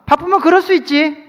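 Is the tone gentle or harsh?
harsh. It is said in a harsh, cold tone.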